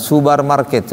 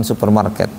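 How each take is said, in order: First: Subar said with a b in place of p. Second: Said in the usual way. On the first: Retold or imitated. Teacher mimics Saudi pronunciation of supermarket, b for p. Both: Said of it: "bukan supermarket".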